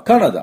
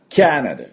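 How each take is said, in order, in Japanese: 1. 最初の音節は、普通の 'ka' の音です。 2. 最初の音節は 'kya' のように聞こえます。'cat' のように。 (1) "カナダって言って通じないことはないでしょうけども" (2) "実際はキャナダ"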